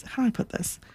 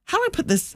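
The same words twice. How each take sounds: First: How do I put this? whispered, much softer, no voice; a secretive little whisper to the listener; whispered aside. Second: Said in the usual way. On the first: Real, not acted. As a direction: drop to a hushed whisper, musing to herself. Repeats phrase, hushed aside.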